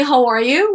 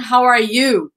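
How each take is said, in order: First: "How are you?" with a rise at the end; rising intonation. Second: "How are you?" with "how" hit hard, then falling; wrong intonation. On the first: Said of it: "be careful with the intonation". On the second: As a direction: stress "how" and let "How are you?" drop. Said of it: "It's not". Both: Shown as a demonstration.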